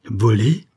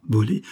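First: Louder stunned cry; pained cry. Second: Stunned echo. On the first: Madeleine cries out on hearing her daughter was stolen. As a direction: cry out the word in pain. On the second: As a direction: say it again to yourself, stunned. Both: A narrator's reading. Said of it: "s'écria douloureusement".

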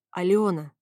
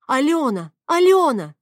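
First: Resigned, falling name; mildly weary address; sighed. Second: Loud, high call of a name; alarmed shouted name; urgent shout. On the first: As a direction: say the name with a sigh. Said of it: "парень вздохнул". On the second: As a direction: call out to stop her. Shouting to stop the fight. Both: A narrator's reading.

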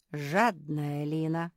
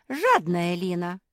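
First: Лина stretched slow and stressed. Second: Жадная punched loud at the start; loud, stress on Жадная. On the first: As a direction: lean hard on Лина. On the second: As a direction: hit Жадная hard. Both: A narrator's reading. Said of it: "повторила Ретти".

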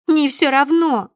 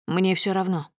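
First: Loud, high, drawn-out contradiction; piercing shout. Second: Said in the usual way. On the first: A narrator's reading. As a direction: shout down his indifference. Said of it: "Её голос становится пронзительным". (пронзительный возмущённый крик)

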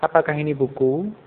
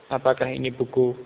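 First: "Apakah ini buku" climbing at the end on "buku"; rising question intonation. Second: "Apakah ini buku" on a level tone, no lift on "buku"; too-flat question. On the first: Teacher shows the right way to ask, rising intonation. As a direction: let "buku" rise as when really asking. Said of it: "ada intonasi yang agak naik tadi". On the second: Teacher shows the wrong way to ask, too flat. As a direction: ask it without any rise on "buku". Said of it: "itu terlalu datar". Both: Shown as a demonstration.

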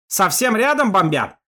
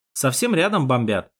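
First: Loud shout, stress on рядом. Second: Said in the usual way. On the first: Acted. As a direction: yell over the engine noise. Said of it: "перекрикивая завывание мотора". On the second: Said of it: "narration, not dialogue".

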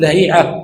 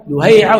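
First: لهيعة said "Lahi'a", a then long i; fatha reading. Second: لهيعة said "Luhay'a", u then ay; damma reading. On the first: Teacher showing same spelling, different vowels, fatha reading "Lahi'a". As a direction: say لهيعة as la-HEE-'a. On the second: Teacher showing same spelling, different vowels, damma reading "Luhay'a". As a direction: say لهيعة as lu-HAY-'a. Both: Shown as a demonstration. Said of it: "تغيير في الشكل".

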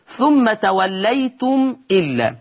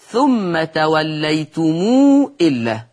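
First: Said in the usual way. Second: توليتم read "tawallaytumuu", very long ū before إلا; lengthened mim. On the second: Shown as a demonstration. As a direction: stretch the م of توليتم into a long, slow ū. (توليتم بصلة الميم مشبعة) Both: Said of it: "يقرأ ورش أيضًا بالصلة".

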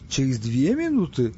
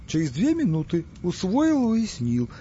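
First: Slow, doubtful question; puzzled double-check. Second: Eager servile repetition, voice leaping high then dropping. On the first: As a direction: ask back slowly, not quite getting it. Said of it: "снова переспросил тот". (растерянно переспрашивая) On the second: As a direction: hurry to show you obey. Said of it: "подобострастно кланяясь". (подобострастно, испуганно) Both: Acted.

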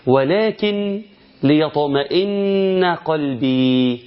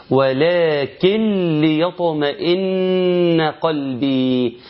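First: Slow chant, pause after the N of "ولكن" before "ليطمئن"; N pronounced separately. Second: Slow chant, N of "ولكن" merged into the L of "ليطمئن"; idgham without ghunnah. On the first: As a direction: recite "ولكن ليطمئن" with a clear N ending "ولكن". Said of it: "ولكن نون ساكنة". (تلاوة بطيئة مع إظهار نون "ولكن" والوقف عليها) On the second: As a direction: recite "ولكن ليطمئن" as "walakil-liyatma'inna", no nasal hum. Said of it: "سمعني بقى كده الإدغام عامل إزاي؟". (تلاوة بإدغام نون "ولكن" في لام "ليطمئن" بلا غنة) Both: Shown as a demonstration.

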